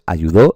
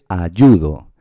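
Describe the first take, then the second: First: Slow "ayudó" with a strong final "dó"; stress on final syllable. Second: Slow "ayudo" with a strong middle "yu"; stress on YU. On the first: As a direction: hit the last syllable of "ayudó". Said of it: "Pues ayudó existe". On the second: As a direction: hit the middle syllable of "ayudo", letting "do" drop. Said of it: "en este caso es ayudo". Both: Shown as a demonstration.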